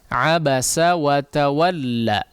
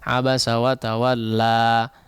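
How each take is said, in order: First: The final vowel is held briefly, two beats. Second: The final vowel is stretched out too long. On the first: The speaker calls it right. "Di sini dibaca dua harakat saja" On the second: The speaker calls it wrong. "sebagian orang terlalu memanjangkan"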